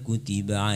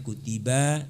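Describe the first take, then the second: First: The vowels are kept short. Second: A vowel is drawn out long. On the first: The speaker calls it right. "itu banyak pendek nak. Jangan dipanjangkan" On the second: The speaker calls it wrong. "jangan kutiba, salah artinya nanti"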